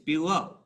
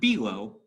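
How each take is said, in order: First: The stress is on the second syllable. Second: The stress is on the first syllable. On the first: The speaker calls it right. "It's weak, strong" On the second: The speaker calls it wrong. "It's not below"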